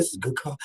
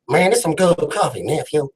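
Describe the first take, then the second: First: Said in the usual way. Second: Playful rapper impression. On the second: Host praises coffee to his guest, mock rapper voice. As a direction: imitate a laid-back West Coast rapper. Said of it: "that's my [name]".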